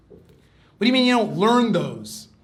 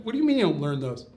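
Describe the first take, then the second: First: Loud, high, drawn-out incredulous protest; exasperated disbelief. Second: Quick, puzzled comeback; puzzled disbelief. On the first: Student challenging a man over forbidden books, loud exasperation. Retold question repeated, escalating in outrage. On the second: Student questioning a man about forbidden books, quick disbelief. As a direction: question it quickly, taken aback. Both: Retold or imitated.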